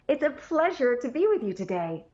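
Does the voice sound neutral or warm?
warm. The tone is brighter and warmer.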